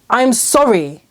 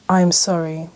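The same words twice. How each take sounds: First: It is said in an angry tone. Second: It is said in a sincere tone. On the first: The speaker is not really apologizing. "When it's said angrily" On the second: The speaker genuinely apologizes. "a sincere apology"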